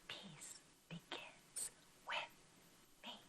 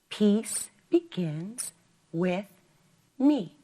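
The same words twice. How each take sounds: First: It is whispered without full voice. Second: It is spoken aloud in a normal voice. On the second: "say it out loud together"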